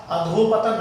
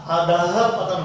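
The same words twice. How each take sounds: First: अधोपतन with 'o' in the middle; mispronunciation demo. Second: अधः पतन with an audible 'ha' after adha; correct pronunciation. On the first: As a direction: say अधोपतन as a-dho-patan. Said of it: "अधोपतन नहीं होता". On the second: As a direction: say अधः पतन as a-dha-ha patan. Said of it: "अधः पतन होता है". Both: Shown as a demonstration.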